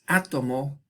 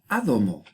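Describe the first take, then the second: First: The middle consonant is a plain t. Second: The middle consonant is a softened d. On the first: The word entered after the sound change ended. The speaker calls it right. "Tenemos átomo" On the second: The word underwent the sound change. The speaker calls it wrong. "y no ádomo"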